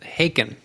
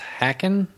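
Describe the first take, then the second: First: The first vowel is long, as in 'hay'. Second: The first vowel is short, as in 'hack'. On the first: The speaker calls it right. "everybody at the show pronounced it Haken" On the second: The speaker calls it wrong. "I always thought the band was Hacken"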